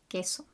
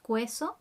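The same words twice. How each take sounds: First: The U after the Q is silent. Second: The U after the Q is sounded. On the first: The speaker calls it right. "the U is silent" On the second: The speaker calls it wrong. "So you don't pronounce the U, the U is silent. So not queso"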